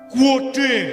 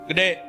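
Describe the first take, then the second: First: It is drawn out with extra vowels, Semarang style. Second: It is said short and plain, Jakarta style. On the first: "kalau orang Semarang bilangnya apa? ... Ada huruf O sama U sama E di tengah" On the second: "kita sebut apa orang Betawi? ... di Jakarta cuma empat huruf"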